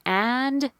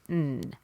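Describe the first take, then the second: First: The word is said fully with its final d. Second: The word is reduced to a bare n sound. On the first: The speaker calls it wrong. "Don't say and" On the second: The speaker calls it right. "say N"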